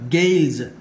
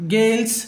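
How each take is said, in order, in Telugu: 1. చివరి ధ్వని గునగునమనే z. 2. చివరి ధ్వని హిస్ అనే s. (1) "yes must be pronounced like za" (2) "ఇలా అనకూడదు"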